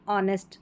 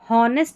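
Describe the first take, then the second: First: The word begins with a vowel sound. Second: The word begins with an h sound. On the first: The speaker calls it right. "इसमें एच silent है" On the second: The speaker calls it wrong. "यहाँ पर इसको हॉनेस्ट नहीं पढ़ेंगे"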